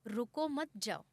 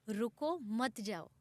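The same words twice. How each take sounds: First: "रुको मत" run together, then the break before "जाओ"; as the other side heard it, the break after मत; misheard phrasing. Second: "रुको," then a clear break before "मत जाओ"; pleading रुको with a pause, then मत जाओ; pause after रुको. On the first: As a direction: join "रुको मत", pause, then "जाओ": don't stop, go. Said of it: "और उन्होंने सुना". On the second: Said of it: "कोट मैंने कहीं ऐसे ही पढ़ी थी कि गलतफहमी". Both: Shown as a demonstration.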